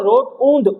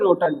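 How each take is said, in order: First: The second syllable has a clear 'oo' vowel. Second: The second syllable has no clear 'oo' vowel. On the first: "इसको पढ़ो रोट ऊंद।" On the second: "यू silent होता है।"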